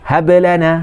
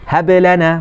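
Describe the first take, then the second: Both takes have the same delivery.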